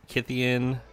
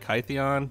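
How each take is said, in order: First: The name rhymes with Gideon. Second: The name does not rhyme with Gideon. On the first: The speaker calls it right. "Kytheon is supposed to rhyme with Gideon" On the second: The speaker calls it wrong. "I know some people say Kytheon"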